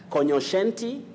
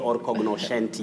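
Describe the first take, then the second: First: The g and n merge into one sound. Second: The g and n are sounded separately. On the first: The speaker calls it right. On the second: The speaker calls it wrong.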